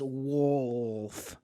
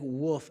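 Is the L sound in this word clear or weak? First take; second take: clear; weak. First: The L sound is clearly pronounced. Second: The L sound is weak or missing. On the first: The speaker calls it right. "but it's wolf, like the L" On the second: The speaker calls it wrong. "she says I say it like wolf"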